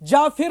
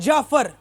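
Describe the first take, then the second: First: The second syllable has an 'i' vowel. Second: The second syllable has an 'a' vowel. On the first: The speaker calls it wrong. "जाफिर नाम नहीं है" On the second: The speaker calls it right. "जीम पे भी जबर है, फे पे भी जबर है"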